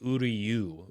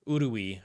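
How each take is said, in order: First: The name ends with a 'yoo' sound. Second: The name ends with an 'ee' sound. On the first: The speaker calls it right. "but it should be Uryu" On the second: The speaker calls it wrong. "I think is how I was saying it"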